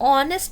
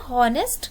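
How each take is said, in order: First: The word starts with a vowel, no h. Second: The word starts with an h sound. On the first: The speaker calls it right. "ऑनेस्ट को हम ऑनेस्ट बोलते हैं" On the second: The speaker calls it wrong. "हॉनेस्ट नहीं बोलते हैं"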